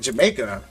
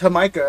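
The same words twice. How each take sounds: First: It is said like the English country name. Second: It is said with a Spanish pronunciation. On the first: The speaker did not know the correct pronunciation. The speaker calls it wrong. "I didn't even know how to pronounce it ... It's like Jamaica. Making Jamaicans in Mexico?" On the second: Someone else corrected the pronunciation. The speaker calls it right. "no, it's Jamaica"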